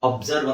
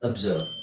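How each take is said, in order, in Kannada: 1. ಮೊದಲ ಸ್ವರ full 'o' sound. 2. ಮೊದಲ ಸ್ವರ ಶಾರ್ಟ್ ಶ್ವಾ ಸೌಂಡ್. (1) "ಅಬ್ಸರ್ವ್ ಅಂತ ನಾವು ಅನ್ಕೊಂಡಿದ್ವಿ" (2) "ಆಕ್ಚುಲಿ ಅದು ಅಬ್ಸರ್ವ್ ... ಶಾರ್ಟ್ ಶ್ವಾ ಸೌಂಡ್ ಹೇಳಬೇಕು"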